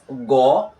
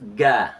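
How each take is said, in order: First: The vowel is a rounded, heavy o sound. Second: The vowel is a light, open a sound. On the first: The speaker calls it right. "This is go" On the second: The speaker calls it wrong. "not ga"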